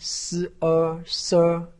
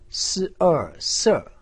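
First: The pitch stays high and level. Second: The pitch falls sharply from high to low. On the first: "一声" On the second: "四声"

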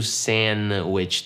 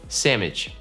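First: The d sound is dropped completely. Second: The n and d are replaced by an m. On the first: "Я не говорю sandwich, то просто как будто там ее нету" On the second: "Носители просто заменяют N и D на букву M"

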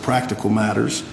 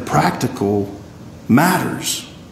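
First: The stress is on the word practical. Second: The stress is on the word matters.

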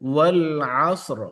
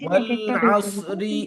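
First: The phrase ends on two consonants without a vowel. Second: The phrase ends with a short i vowel. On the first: The reader stops at the end of the verse. "দুইটা সুকুন যখন পাশাপাশি চলে আসে" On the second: The reader joins it to the next verse. "ওয়াল আসরি আবার যদি মিলিয়ে পড়ি"

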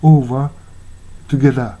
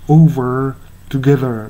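First: The final r sounds are dropped entirely. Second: The final r sounds are clearly pronounced. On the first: It sounds as if it were British English. "あたかもイギリス英語であるかのごとくR を響かせてません" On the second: This is the usual American pronunciation. "r が響くr over together っていうのが普通のアメリカ発音"

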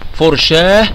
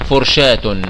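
First: The word ends with a soft h sound. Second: The word ends with a t sound. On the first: The word ends the phrase. "في حالة الوقف تنطق ها" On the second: The word runs on into more speech. "وفي حالة الوصل تنطق تاء"

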